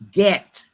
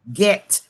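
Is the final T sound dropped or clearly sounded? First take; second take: sounded; sounded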